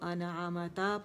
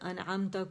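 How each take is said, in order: First: The m has a short a after it. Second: The m has no vowel after it. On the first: The speaker calls it wrong. "उसे ज़बर दे दी" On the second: The speaker calls it right. "मीम पर साकिन था"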